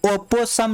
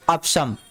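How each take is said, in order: First: ओपोसम in three syllables, "o-po-sam"; wrong reading, O sounded. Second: अपशम in two syllables, "op-sham"; correct reading, silent O. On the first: Teacher rejecting a misreading for students, ओपोसम with every O pronounced. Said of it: "नहीं है". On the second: Teacher correcting the reading for students, अपशम as "op-sham". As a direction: swallow the middle O in अपशम. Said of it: "इसको पढ़ते हैं". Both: Shown as a demonstration.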